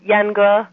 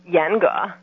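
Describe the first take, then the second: First: The word is said with the tones meaning castrate. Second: The word is said with the tones meaning strict. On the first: The speaker means castrate. The speaker calls it wrong. "and you say yenge, it's not strict, but castrate" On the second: The speaker means strict. The speaker calls it right. "which is yenge"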